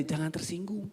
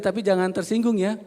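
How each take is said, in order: First: "Jangan tersinggung" said much softer, as a side remark; aside to neighbour. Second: Said in the usual way. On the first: Shown as a demonstration. Churchgoers to their neighbours, soft aside. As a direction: murmur "Jangan tersinggung" to the person beside you. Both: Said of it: "Bilang orang sebelahnya".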